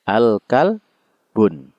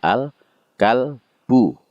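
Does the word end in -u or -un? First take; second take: -un; -u. First: The word ends with a final n sound. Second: The word ends on a vowel, no final n. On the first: The speaker calls it wrong. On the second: The speaker calls it right. "Yang benar adalah"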